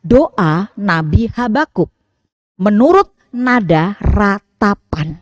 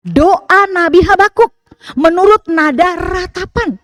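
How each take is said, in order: First: Slow, measured reading of the title. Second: Doa Nabi Habakuk lifted higher and louder, Habakuk rising; emphatic title. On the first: Preacher reading the psalm title to the congregation, slow and even. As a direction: read the heading out slowly and evenly. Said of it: "Silahkan dibuka judul". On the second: Preacher stressing the title so the congregation notices it, raised and louder. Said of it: "Perhatikan, diawali dengan". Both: Shown as a demonstration.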